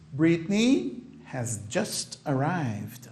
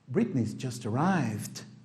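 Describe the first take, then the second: First: The word 'has' is said in full. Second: The word 'has' is contracted to 's'.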